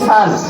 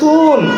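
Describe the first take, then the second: First: The vowel is an open 'ah' sound. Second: The vowel is a rounded 'oo' sound. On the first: The speaker calls it right. "সানকে সান বলতে হবে" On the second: The speaker calls it wrong. "সানকে সুন বলা যাবে না"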